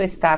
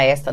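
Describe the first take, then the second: First: Está with the weight on final TÁ; stress on final syllable. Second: Esta with open ÉS stressed, ta unstressed; stress on first syllable. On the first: Teacher recapping the accented word, final-syllable stress. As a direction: land on the last syllable of está. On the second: Teacher recapping the word without accent, first-syllable stress. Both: Shown as a demonstration. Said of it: "som e do acento".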